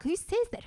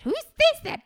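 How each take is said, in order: First: High, disbelieving squeak; can't believe anyone said that; incredulous. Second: Much higher and louder, almost a shriek; shrieking disbelief. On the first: Host reacting to the creepy quote, incredulous. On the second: Host repeating the question to listeners, shrieking disbelief. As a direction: push the disbelief right over the top. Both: Real, not acted.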